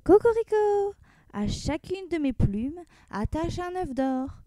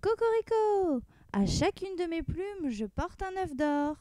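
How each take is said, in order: First: High crow, then slow demand; rooster crying out. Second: Rooster crowing from afar. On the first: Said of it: "il s'écria". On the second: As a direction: crow proudly coming home. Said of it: "on l'entendit crier". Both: Acted.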